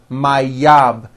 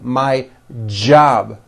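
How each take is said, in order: First: The word begins with a Y sound. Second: The word begins with a strong J sound. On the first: The speaker calls it wrong. "It's never yab" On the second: The speaker calls it right. "It's always my job with a strong J sound"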